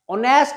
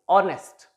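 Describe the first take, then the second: First: The stress is on the second syllable. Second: The stress is on the first syllable. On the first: The speaker calls it wrong. "Honest नहीं" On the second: The speaker calls it right. "the stress on the first syllable"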